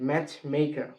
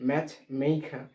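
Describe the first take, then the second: The two takes are said the same way.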